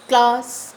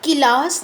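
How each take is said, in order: First: The opening k and l blend with no vowel. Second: An extra vowel splits the opening k and l. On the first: The speaker calls it right. "पहले अक्षर को आधा ही पढ़ना है" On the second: The speaker calls it wrong. "हमको किलास नहीं बोलना"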